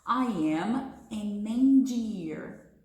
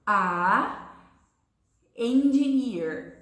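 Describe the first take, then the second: First: "an engineer" glided together in one breath, slow; smooth linking. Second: "a" pushed out loud, a pause, then "engineer" slow and loud; a labored breath between "a" and "engineer"; broken with a breath. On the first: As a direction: link "an" straight into "engineer" with no break. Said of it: "diga junto comigo pra você ver como essa letrinha N". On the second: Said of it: "precisou encher o pulmão de ar várias vezes". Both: Shown as a demonstration.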